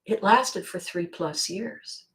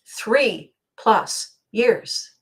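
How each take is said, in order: First: Said in the usual way. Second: Three punched, each word drawn out very slowly; slow emphatic repeat. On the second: Shown as a demonstration. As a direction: lean hard on Three and let plus years drag.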